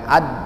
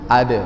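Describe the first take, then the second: First: The d is stopped and held without release. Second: The d is released with a light bounce. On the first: The speaker calls it wrong. "bukan ad ... jangan sampai ditahan" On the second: The speaker calls it right. "Lentur gih, ... mengalir ya"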